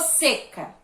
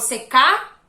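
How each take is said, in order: First: The stress is on the first syllable. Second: The stress is on the last syllable. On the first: The speaker calls it right. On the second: The speaker calls it wrong.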